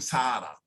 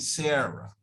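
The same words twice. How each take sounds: First: The name is said with Spanish-style sounds. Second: The name is said with English sounds. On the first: The speaker calls it wrong. "We're not saying Sarah" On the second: The speaker calls it right. "We're saying Sarah"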